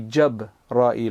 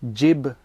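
First: The first vowel is an 'a' sound. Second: The first vowel is an 'i' sound. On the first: The speaker calls it right. "then it has to be Jabra'il with a fatha" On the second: The speaker calls it wrong. "one of the most common ways that people generally say it"

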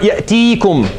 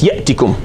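First: The vowel after the t is long. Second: The vowel after the t is short. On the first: The final vowel of the verb was kept. The speaker calls it wrong. "It's not ya'tikum" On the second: The final vowel of the verb was deleted. The speaker calls it right. "You do jazm on a vowel, you delete it"

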